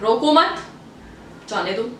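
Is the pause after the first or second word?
second. The pause comes right after मत.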